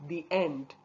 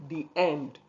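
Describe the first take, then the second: No difference in how they are said.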